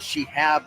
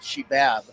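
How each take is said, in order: First: The middle consonant is an H sound. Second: The middle consonant is a B sound. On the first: The speaker calls it right. "the third base umpire's name is Shehab" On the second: The speaker calls it wrong. "not Shebab"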